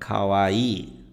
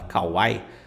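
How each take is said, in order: First: The final vowel is prolonged and long. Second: The final vowel is short, not prolonged. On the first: The speaker calls it right. "Ele tem um prolongamento aqui" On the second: The speaker calls it wrong. "muita gente pronuncia errado essa palavra"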